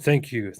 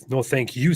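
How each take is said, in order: First: Said in the usual way. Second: "you" stressed and lifted; emphatic "you", turning the thanks back. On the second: Real, not acted. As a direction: return the thanks by leaning on "you".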